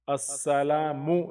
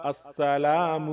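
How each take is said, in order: First: السلام with an added u ending; the mistaken السلامُ version; wrong take. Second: السلام ending cleanly on the m; correct take. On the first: Teacher demonstrates the wrong ending to avoid. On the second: Teacher gives the correct السلام after the error. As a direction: say السلام without any added vowel. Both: Shown as a demonstration. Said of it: "السلام نہیں".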